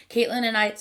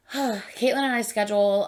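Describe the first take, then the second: First: Interrupted by a hiccup. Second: Said in the usual way. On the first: Real, not acted. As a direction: hiccup mid-sentence. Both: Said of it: "I'm hiccuping".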